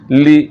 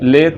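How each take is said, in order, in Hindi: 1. स्वर साफ़ 'ee' की आवाज़ है। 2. स्वर 'ay' की आवाज़ है। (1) "इसको पढ़ना है ली" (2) "ये ले मजहूल है, ले नहीं पढ़ना"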